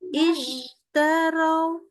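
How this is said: The sh flows straight into the t unbroken. The speaker calls it right. "Jadi langsung terus"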